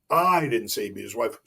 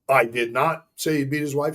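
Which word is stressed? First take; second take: I; not. First: The word "I" is stressed. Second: The word "not" is stressed. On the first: Someone else said it. "Kristen said it" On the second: The speaker denies saying it. "Statement of denial"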